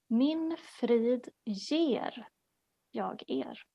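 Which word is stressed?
ger. The stress is on the word 'ger'.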